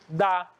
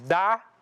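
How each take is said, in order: First: The final R sound is dropped. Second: The final R sound is pronounced. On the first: The speaker calls it wrong. "costumamos dizer dá" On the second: The speaker calls it right. "Ao invés de dizermos dar"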